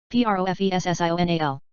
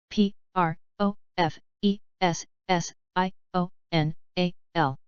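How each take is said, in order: First: Quick letter run; brisk recap spelling; fast spelling. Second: Slow, letter by letter; unhurried classroom spelling. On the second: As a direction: spell each letter out slowly. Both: Shown as a demonstration. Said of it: "spelling drill, slow then fast".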